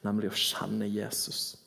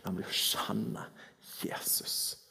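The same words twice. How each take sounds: First: Said in the usual way. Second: Softly, dropping to a whisper on Jesus; hushed. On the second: Acted. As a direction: let the name fall to a hush. Preacher hushes key name.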